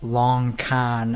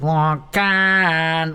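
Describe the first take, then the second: First: Said in the usual way. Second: "Long con." drawn out as a smug punchline; savoured delivery. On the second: Shown as a demonstration. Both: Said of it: "proud of the way I said".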